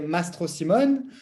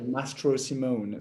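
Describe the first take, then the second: First: The name is said with a French accent. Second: The name is said with an English accent. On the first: This is how it is said in France. "as I grew up in France, we say" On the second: This is how English-speaking countries say it. "a bit more uh, English American accent"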